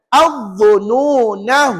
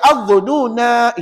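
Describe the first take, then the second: First: The final vowel is cut short. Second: The final vowel is held long. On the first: The reading runs on into the next word. "kena baca pendek jika kita wasal" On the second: The reciter stops on this word. "itu panjang"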